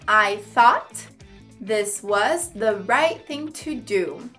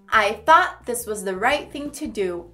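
First: Each word is said carefully and separately. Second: The words run together more naturally and smoothly.

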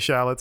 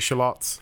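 First: Shallots is said in an American way. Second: Shallots is said in a British way. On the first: The speaker calls it wrong. "I don't say shallots" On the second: The speaker calls it right. "I say shallots"

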